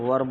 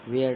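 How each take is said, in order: First: The vowel sounds like the one in 'fur'. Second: The vowel sounds like the one in 'wear'. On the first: The speaker calls it right. "वेयर को हम लोग वर बोलते हैं शुद्ध अगर pronunciation करें तो" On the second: The speaker calls it wrong. "यहाँ पे कहा होगा वेयर नॉट"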